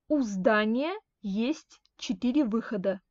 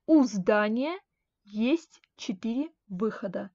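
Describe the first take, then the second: No difference in how they are said.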